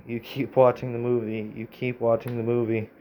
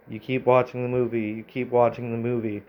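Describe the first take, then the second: No difference in how they are said.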